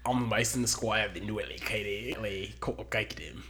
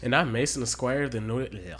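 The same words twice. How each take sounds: First: Australian intro tried over; retry the name in a mock Australian accent; a clumsy Australian accent; bad Australian accent. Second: Loud hammed-up Australian intro; a half-hearted Australian twang, loud; bad Australian accent. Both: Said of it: "The worst Australian accent ever".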